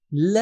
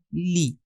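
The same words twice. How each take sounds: First: ل said as a short "la"; short, clipped-off "la" for ل; lam with zabar. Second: لی said as "li" with an "ee" sound; لی with the zer vowel, "li"; lam with zer. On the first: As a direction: say ل with a brief open "a" vowel. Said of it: "زبر کے ساتھ". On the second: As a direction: say لی as "lee", not "la". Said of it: "زیر کے ساتھ". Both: Shown as a demonstration.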